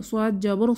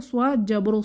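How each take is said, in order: The two takes are said the same way.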